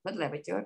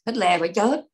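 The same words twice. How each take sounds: First: "Hitler phải chết" nói nhỏ hẳn đi; hạ giọng lặp lại "Hitler phải chết" như tự nhủ; lặp lại khẽ. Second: Nhấn mạnh "Hitler phải chết", cao và to hơn; dằn giọng từng chữ "Hitler phải chết"; nói mạnh. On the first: (lặp lại nhỏ nhẹ) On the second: Nhấn mạnh điều tất yếu. (nhấn giọng cao và to) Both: Real, not acted.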